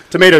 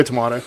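First: "Tomato" as to-MAY-to; American pronunciation. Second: "tomato" as to-MAH-to; British-style pronunciation. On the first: Co-host shrugs off the debate, "Tomato" as to-MAY-to. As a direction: say "Tomato" with a long "ay". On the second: Co-host shrugs off the debate, "tomato" as to-MAH-to. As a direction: say "tomato" with an open "ah". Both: Shown as a demonstration. Joking over two pronunciations.

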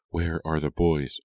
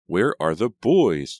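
First: Said in the usual way. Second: Slow, loud, high question; calling question. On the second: A narrator's reading. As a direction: ask it raised and drawn out, searching. Sister looks for missing boys.

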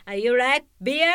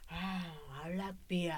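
First: Loud, high katakana English question; emphatic beginner English with a Japanese accent; broken Japanese-accented English. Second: Low, soft, offhand English answer; understated imitation of an English speaker; foreign visitor's reply. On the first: Acted. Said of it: "出川英語". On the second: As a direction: answer quietly as the foreign passer-by. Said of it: "って返ってきたから".

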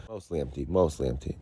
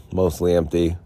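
First: Softer, muttering it to himself; muttered softly. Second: Said in the usual way. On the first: Shown as a demonstration. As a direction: drop the voice, mutter it. Repeats phrase, then drops voice.

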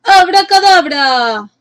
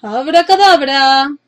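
First: High, slow magic shout; drawn-out witch's incantation; shouted spell. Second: Shouted spell. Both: A narrator's reading. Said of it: "la agitó y gritó".

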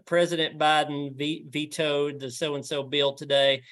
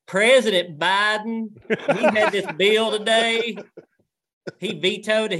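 First: Said in the usual way. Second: Thick rural Southern accent, slow, higher and louder; heavy country Southern newsreader, slowed right down; full swap shop Southern. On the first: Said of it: "and I was like". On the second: Shown as a demonstration. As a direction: lay the Southern drawl on thick. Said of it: "full swap shop".

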